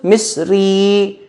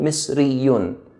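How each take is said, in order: First: The word ends with a plain 'ee' sound. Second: The word ends with a full 'yoon' ending. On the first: This is the form used in everyday speech. "When it comes to speaking, what we do is make an E sound at the end" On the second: This is the full form used in writing. "This is when it comes to writing"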